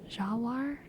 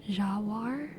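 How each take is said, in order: Both takes have the same delivery.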